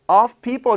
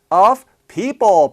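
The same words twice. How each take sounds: First: It is said fast. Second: It is said at a normal speed.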